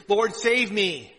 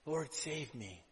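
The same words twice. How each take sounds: First: Loud, slow plea for rescue; a drowning man's cry to the Lord; desperate cry. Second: Much softer, hushed plea; a whispered-down trusting prayer; quiet prayer. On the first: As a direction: cry it out as if sinking. Peter sinking, calling to Jesus. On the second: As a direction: pray it under your breath. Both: Acted.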